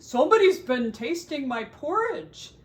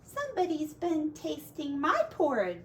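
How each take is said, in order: First: It is said in a great big voice. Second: It is said in a middle-sized voice.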